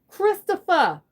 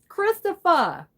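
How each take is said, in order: First: It is said in a Tony Soprano impression. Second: It is said in the speaker's normal voice.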